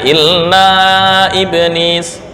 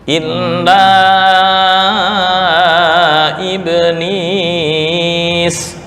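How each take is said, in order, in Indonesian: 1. Vokal panjang itu hanya ditahan dua ketukan. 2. Vokal panjang itu ditahan empat ketukan.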